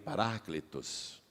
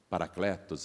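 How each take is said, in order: First: The word is said closer to the Greek way. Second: The word is said the Brazilian Portuguese way. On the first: "em grego a pronúncia mais aproximada é essa que eu te falei" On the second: "Nós falamos paracletos aqui no Brasil"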